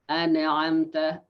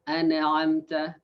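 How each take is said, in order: Both takes have the same delivery.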